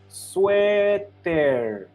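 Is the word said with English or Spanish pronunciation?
Spanish. It is said with Spanish pronunciation. "how they started to pronounce this word, it was sweater"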